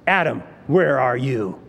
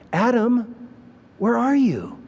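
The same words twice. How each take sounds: First: The voice sounds harsh and angry. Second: The voice sounds gentle and heartbroken. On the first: The speaker is furious and demanding. The speaker calls it wrong. "God is acting like an angry policeman" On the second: The speaker misses the other's company. The speaker calls it right. "the tone of a heartbroken father"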